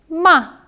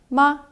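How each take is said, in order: First: The pitch falls sharply from high. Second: The pitch is short, light and relaxed. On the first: "사성은 어, 차, 뚝 떨어지는 소리입니다" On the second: "경성은 가벼울 경자를 써서 그냥 편하게 이렇게 발음하시면 되는데요"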